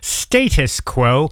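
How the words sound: It is said in a British accent.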